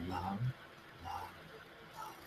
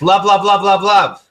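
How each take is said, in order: First: Soft mantra. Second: Clipped, louder, higher love mantra; angry love. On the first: Coach demonstrating a calm love mantra, hushed. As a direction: breathe the word out gently, eyes closed. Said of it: "Close your eyes and say". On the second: Coach acting an angry listener forcing love, louder. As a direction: spit out love through anger. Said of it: "you might say it like this". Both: Shown as a demonstration.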